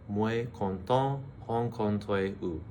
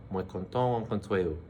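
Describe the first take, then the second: First: Slow, careful "Moi content rencontrer vous"; teacher modelling the phrase slowly; slow full take. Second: Said in the usual way. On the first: Shown as a demonstration. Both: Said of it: "probably the hardest to say".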